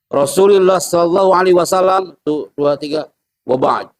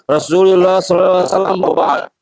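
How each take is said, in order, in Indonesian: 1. Ada jeda beberapa detik sebelum kata terakhir. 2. Langsung menyambung ke kata terakhir tanpa jeda. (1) "Kasih jeda dulu" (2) "Jadi jangan"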